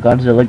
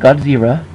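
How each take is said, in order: First: The middle consonant is an L sound. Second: The middle consonant is an R sound.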